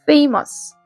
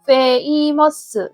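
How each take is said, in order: First: The word is said smoothly in two syllables. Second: The word is broken into four separate syllables. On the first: The speaker calls it right. "2음절이에요" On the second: The speaker calls it wrong. "한국어처럼 읽어버리면 famous 해가지고 4음절처럼 느껴지거든요"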